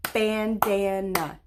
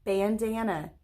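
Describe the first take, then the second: First: "Bandana" slowly in three separate beats; syllable by syllable. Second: Said in the usual way. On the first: Shown as a demonstration. Teacher clapping with pupils, "Bandana" slow, one beat per syllable. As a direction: stretch and split "Bandana" into three clapped parts. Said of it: "let's say it and clap it". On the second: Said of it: "We're gonna say the word bandana".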